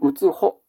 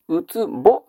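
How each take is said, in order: First: The last syllable is said with an 'h' sound. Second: The last syllable is said with a 'b' sound. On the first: The speaker calls it right. "うつほです。" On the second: The speaker calls it wrong. "うつぼではありません。"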